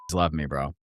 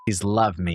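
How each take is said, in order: First: It is said in a put-on macho voice. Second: It is said in his natural voice.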